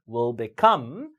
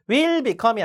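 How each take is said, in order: First: Will beCOME, will weak; strong COME in become; stress on second syllable. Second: WILL become, will drawn out; wrongly stressed will. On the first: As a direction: skim will and hit become. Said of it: "뒤에 강세죠". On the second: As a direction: lean on will as the mistake. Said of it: "이 아니라". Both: Shown as a demonstration.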